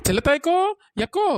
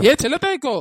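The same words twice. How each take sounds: First: Loud call with a rising end; hailing a neighbour across the yard. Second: Loud, falling shout of her name; shouting her name with a falling end; angry call. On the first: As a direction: call her name from a distance. Calling out from afar. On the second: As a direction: call her sharply, fed up. Calling out again, angrier. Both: Acted.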